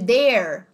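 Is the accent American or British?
American. It is said with an American accent.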